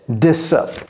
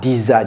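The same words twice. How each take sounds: First: The middle consonant is a hissing s sound. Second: The middle consonant is a buzzing z sound. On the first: The speaker calls it right. "ça se prononce comme si c'était deux S" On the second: The speaker calls it wrong. "je n'ai pas dit disa"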